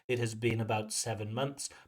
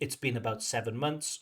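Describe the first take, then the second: First: 'It has' is said as two full words. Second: 'It has' is shortened to 'it's'. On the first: "the full form" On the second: "we would say"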